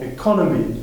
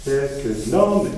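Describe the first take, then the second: First: Economy with the weight on CON; stress on CON. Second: Economic said slowly with the weight on NO; stress on NO. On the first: Teacher contrasting it with economic for the class, stressing CON. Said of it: "on change l'emplacement". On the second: Teacher contrasting it with economy for the class, stressing NO. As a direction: lean on the NO of economic. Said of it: "ça nous donne". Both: Shown as a demonstration.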